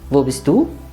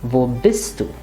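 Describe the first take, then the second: First: The stress does not fall on bist. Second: The stress falls on the verb bist. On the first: "sometimes you can ask" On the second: "the rule of thumb is that we stress the verb"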